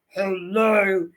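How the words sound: It is said in an angry, cross voice. "How do you say hello when you're angry?"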